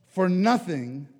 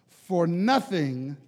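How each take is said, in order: The two takes are said the same way.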